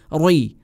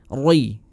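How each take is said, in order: Both takes have the same delivery.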